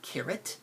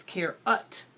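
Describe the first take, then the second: First: Said in the usual way. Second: Care-ut said slowly with a full UT; slow, literal care-UT; sounded-out spelling. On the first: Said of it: "That's not carrot". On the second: Shown as a demonstration. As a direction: stretch care-ut into two clear parts. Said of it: "That's care-ut".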